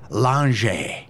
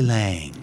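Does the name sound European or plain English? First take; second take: European; plain English. First: The name is said with a European-sounding pronunciation. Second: The name is said with a plain English pronunciation. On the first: "Watch how I say this just to bother you. ... It sounds European?" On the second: "but it's really Stacy Lange"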